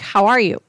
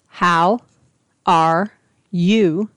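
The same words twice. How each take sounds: First: The words are said quickly and run together. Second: The words are said slowly and separately. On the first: This is how people really spoke here. "I thought everybody spoke so fast" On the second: This is how it was taught at the camp. "they were slow"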